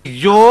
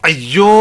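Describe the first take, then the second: Both takes have the same delivery.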